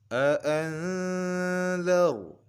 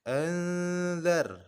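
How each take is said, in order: First: The r sound is heavy and thick. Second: The r sound is light and thin. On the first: The speaker calls it right. "maka huruf ro-nya kita tebalkan" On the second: The speaker calls it wrong. "Tidak boleh dibaca tipis seperti ini"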